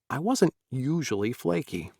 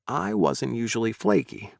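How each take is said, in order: First: The word I is not stressed. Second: The word I is stressed. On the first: The speaker calls it wrong. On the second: The speaker calls it right.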